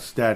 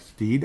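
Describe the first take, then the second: First: The vowel is short, as in 'bed'. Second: The vowel is long, as in 'seed'. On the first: The speaker calls it wrong. "it's not Stead" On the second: The speaker calls it right. "Like Steed"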